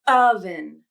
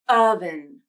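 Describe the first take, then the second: The two takes are said the same way.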